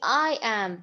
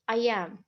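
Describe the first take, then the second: First: The words are said with strong emphasis. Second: The words are said plainly without emphasis. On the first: The speaker stresses that they did it. "Sometimes when you want to stress something" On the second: Ordinary talk with nothing singled out. "when you're just naturally talking"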